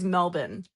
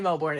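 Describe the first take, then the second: First: It is pronounced the Australian way. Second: It is pronounced the American way. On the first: "the Australian way is Melbourne" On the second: "but you can say Melbourne. It's okay"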